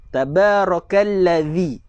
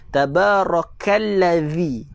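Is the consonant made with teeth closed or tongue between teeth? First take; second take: tongue between; tongue between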